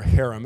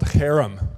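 First: It is pronounced in a plain English way. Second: It is pronounced in a Hebrew-like way.

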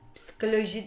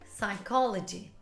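First: The word is said with Turkish sounds. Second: The word is said with English sounds. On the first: The speaker calls it wrong. "Psikoloji değil" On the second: The speaker calls it right.

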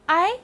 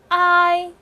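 First: The pitch rises from middle to high. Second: The pitch stays high and level. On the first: "二声I" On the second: "一声I"

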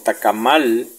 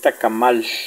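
First: The final sound is a plain l. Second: The final sound is like sh. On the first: The speaker calls it wrong. "No se pronuncia como tacamal" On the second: The speaker calls it right. "la L final se pronuncia sh"

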